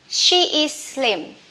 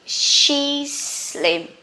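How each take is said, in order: First: Both words 'she is' are said separately. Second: 'She is' is shortened into one syllable.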